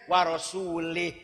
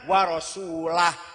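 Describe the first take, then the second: First: The final word ends with an 'ih' sound. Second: The final word ends with an 'ah' sound. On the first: God disowns the idolaters and also disowns his Messenger. The speaker calls it wrong. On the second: God disowns the idolaters, and so does his Messenger. The speaker calls it right. "Yang benar"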